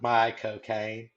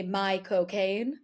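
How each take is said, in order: First: Slow, drawn-out my cocaine in Caine's manner; Michael Caine impression. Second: Slow, drawn-out Michael Caine voice; Michael Caine impression. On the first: Host repeats the Caine joke back, slow and drawn out. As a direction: echo my cocaine slowly, Caine style. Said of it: "you wanna say Michael Caine like Michael Caine". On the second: Friend shows how to say Michael Caine like Caine himself, slow drawl. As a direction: stretch out my cocaine like Caine. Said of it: "if you wanna say Michael Caine like Michael Caine".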